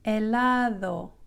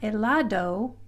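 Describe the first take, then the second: First: The d is pronounced soft, like voiced th. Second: The d is pronounced as a hard stop. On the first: The speaker calls it right. "it's a very soft D" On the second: The speaker calls it wrong. "So it's not helado"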